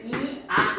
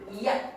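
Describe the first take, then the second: First: Two separate vowels, i and a, are heard. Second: One short syllable glides from i into a. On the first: The speaker calls it wrong. "얘를 이아 이러지 않고" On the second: The speaker calls it right. "이야 이렇게 되지. 얘를 짧게 발음해야 되는 거니까"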